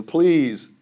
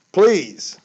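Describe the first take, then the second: First: Raised, pleading please; emotional plea. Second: Much louder and higher pleading please; emotional plea. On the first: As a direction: beg them, getting worked up. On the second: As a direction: cry out the plea, really begging. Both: Real, not acted. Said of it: "Sorry, I got emotional about that".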